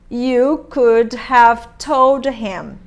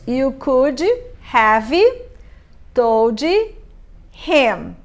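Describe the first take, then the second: First: The final consonants are reduced and linked. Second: The final consonants are pronounced strongly. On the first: The speaker calls it right. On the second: The speaker calls it wrong.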